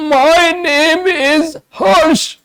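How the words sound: The voice is harsh and strained.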